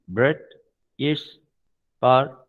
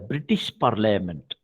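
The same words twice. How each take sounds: First: Each syllable is broken off and said separately. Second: The syllables flow together smoothly and evenly. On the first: This is the speech of cerebellar disease. "The scanning or staccato is" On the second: This is how a healthy person speaks. "That is what we pronounced"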